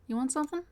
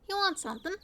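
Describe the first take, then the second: First: The voice is very breathy and airy. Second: The voice is plain and not breathy. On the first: "Maybe that's too breathy" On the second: "I think that's meant to be lower"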